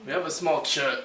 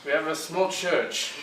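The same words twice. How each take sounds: First: It is spoken in an ordinary, natural voice. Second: It is spoken in a put-on character voice.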